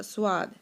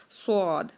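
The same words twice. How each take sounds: First: स्वाद said thin, with a clear sw glide and no heavy vowel; wrong swaad. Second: स्वाद said full-mouthed as a rounded, heavy sod with no w glide; heavy saad. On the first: Teacher imitating how people misread the letter, thin swaad. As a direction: mimic the common mistake, स्वाद as sw-aad. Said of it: "लोग जो पढ़ते हैं". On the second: Teacher giving students the correct heavy saad. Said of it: "आवाज़ को भर के पढ़ना है". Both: Shown as a demonstration.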